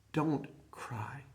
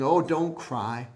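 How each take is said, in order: First: Breathy hush full of compassion; soft whispered comfort; compassionate whisper. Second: Casual, offhand comfort; hollow reassurance; empty platitude. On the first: Acted. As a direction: whisper it tenderly, as Jesus to the widow. Jesus quoted with compassion. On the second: Retold or imitated. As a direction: toss it off like a platitude. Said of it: "just some platitude".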